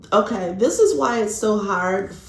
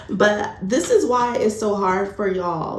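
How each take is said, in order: First: Put-on a light, playful Irish accent. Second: Said in the usual way. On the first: Tarot reader telling viewers why this is hard, in an Irish accent. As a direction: slip into a brief Irish lilt without meaning to. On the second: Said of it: "I don't know why I said it".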